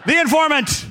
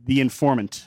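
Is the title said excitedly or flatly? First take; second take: excitedly; flatly. First: The title is said loudly with excitement. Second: The title is said in a flat, plain voice. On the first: The speaker calls it right. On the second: The speaker calls it wrong.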